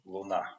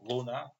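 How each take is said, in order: First: The stress is on the second syllable. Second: The stress is on the first syllable. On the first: "but in Russian, luna, accent on the second syllable" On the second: "it exists in Italian word, in Latin"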